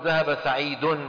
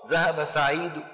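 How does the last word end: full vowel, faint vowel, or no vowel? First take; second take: full vowel; faint vowel. First: The last word ends with a full vowel. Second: The last word ends with a faint, quiet vowel. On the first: The speaker calls it wrong. "العرب ما بيقولوا ذهب سعيد، ما بيعملوا هيك" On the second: The speaker calls it right. "بينطقوا ضمة صوتها واطي"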